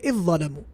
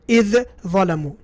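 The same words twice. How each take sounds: First: The two words merge into one sound. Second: The two words are pronounced separately. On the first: The speaker calls it right. "He will say" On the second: The speaker calls it wrong.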